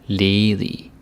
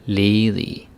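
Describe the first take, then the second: The two takes are said the same way.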